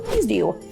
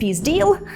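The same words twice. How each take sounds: First: Deal ends with a w-like sound. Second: Deal ends with a clear l sound. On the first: "«л», який замінюється на «в»" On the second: "замість"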